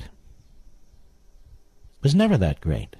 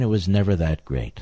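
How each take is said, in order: First: Slow, drawn-out mock of a politician; sneering slow-motion parody of the quote; mocking Andrew Cuomo. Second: Said in the usual way. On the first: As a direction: drag each word out to ridicule him. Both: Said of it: "And he talks like this".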